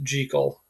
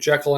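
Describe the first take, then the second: First: The first syllable rhymes with 'seek'. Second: The first syllable does not rhyme with 'seek'. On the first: This is the original Scottish pronunciation. The speaker calls it right. "it's supposed to be pronounced Jekyll" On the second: This is the American pronunciation. The speaker calls it wrong. "we got it wrong and started uh, pronouncing it Jekyll"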